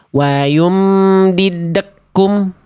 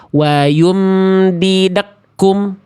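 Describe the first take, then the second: No difference in how they are said.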